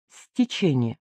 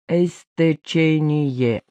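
First: The word starts directly with the consonant cluster. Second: An extra vowel is added before the consonant cluster. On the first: The speaker calls it right. "Добавляется приставка «с»" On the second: The speaker calls it wrong. "Невольно подставляют в начале «э»"

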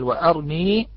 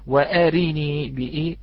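First: The r has no vowel after it. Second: The vowel after the r is said fully. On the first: "منهم من سكن" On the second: "كقراءتنا في حفص وأرني بإتمام الحركة"

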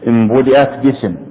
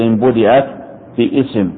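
First: The glottal stop in 'bism' is dropped. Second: The glottal stop in 'bism' is pronounced. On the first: The speaker calls it right. "وانتبه لقراءة المتن" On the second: The speaker calls it wrong. "إياك أن تقول إن بديت باسم ... فهذا خطأ، لأن الهمزة همزة وصل"

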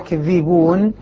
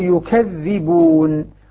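First: First vowel 'a', with a single dh. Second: First vowel 'u', with a doubled dh. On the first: They lie. "الكوفيون بالتخفيف مع فتح الياء" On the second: They deny the truth. "ضم وثقل الياء وثقل الذال"

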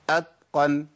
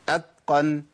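No difference in how they are said.

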